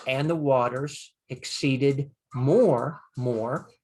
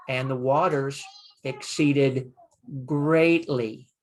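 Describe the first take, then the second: First: Stretched out slowly, word by word, with weight on "more"; slow literal translation; slow literal reading. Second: Emphatic translation with stress on "greatly"; emphatic reading. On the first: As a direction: read "and the waters exceeded more, more" slowly as the plain literal version. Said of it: "So now instead of just". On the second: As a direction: land on "greatly" to show the emphasis. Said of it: "it is". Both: Shown as a demonstration.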